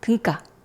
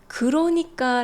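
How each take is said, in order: First: It is said fast with a syllable dropped. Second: Every syllable is said clearly and fully.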